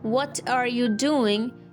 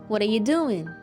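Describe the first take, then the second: First: Each word is said fully and separately. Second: What are you is squeezed together into a reduced form. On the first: "instead of sounding like" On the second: "you may sound like"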